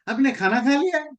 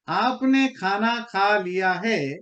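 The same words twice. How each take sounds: First: It is said in a reproachful, disapproving tone. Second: It is said in a plain, neutral statement tone. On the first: The listener should not have eaten. "मतलब है आपको खाना नहीं खाना चाहिए था, आपने कैसे खा लिया?" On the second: The listener has simply eaten. "इसका सिंपल मतलब यही है कि आपने खाना खा लिया"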